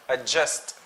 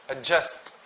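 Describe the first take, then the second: The two takes are said the same way.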